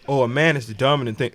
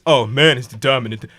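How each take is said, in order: First: It is said in his normal voice. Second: It is said in an exaggerated put-on voice.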